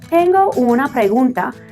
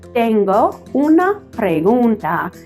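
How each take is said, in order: First: The phrase is said quickly and run together. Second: The phrase is said slowly with each word clear. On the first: "Habla muy rápido" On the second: "she really enunciates it for him"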